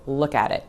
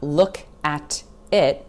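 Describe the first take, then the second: First: The words run together with no breaks. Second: Each word is said separately and clearly. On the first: The speaker calls it right. "no clean pauses between any of these words" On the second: The speaker calls it wrong.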